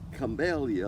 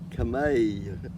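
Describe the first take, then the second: First: The middle syllable sounds like 'mell'. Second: The middle syllable sounds like 'may'. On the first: This is the original form from the name. "they started off camellia, like Belia" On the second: This is the Southern way of saying it. "in the South, camellia became camay, the way we talk"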